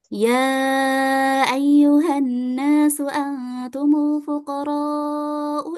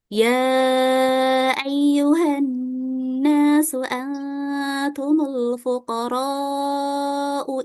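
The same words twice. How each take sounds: First: It is recited quickly with a brisk pace. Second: It is recited at a moderate, normal speed. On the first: "Sekarang kita baca dengan hadar, ya. Berarti lebih cepat lagi bacaannya" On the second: "Sekarang kita pakai tadwir, ya, atau bacaan normal"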